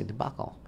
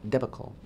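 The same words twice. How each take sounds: First: Debacle as duh-BAH-kul; co-host's pronunciation. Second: Debacle as DEB-uh-kul; own pronunciation. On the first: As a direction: stress the second syllable of debacle, open ah. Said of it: "as Yitzchak would say". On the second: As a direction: stress the first syllable of debacle, short e. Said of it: "or as Yitzchak would say". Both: Shown as a demonstration.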